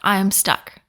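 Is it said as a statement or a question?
statement. It is said as a flat statement.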